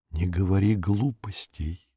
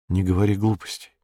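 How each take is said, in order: First: Softer, stretched-out repeat; drawn-out repeat. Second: Said in the usual way. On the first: A narrator's reading. She repeats herself to silence his doubts, slow and soft. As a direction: repeat it slowly, dropping the volume. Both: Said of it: "повторила я".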